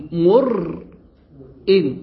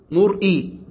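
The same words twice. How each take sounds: First: مرئ drawn out very slowly with a clear hamza after the ra; hamza pronunciation. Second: Said in the usual way. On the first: Shown as a demonstration. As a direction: hold مرئ long so the hamza is heard. (تمديد مرئ ببطء مع إبراز الهمزة) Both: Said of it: "بهمزة بعد الراء".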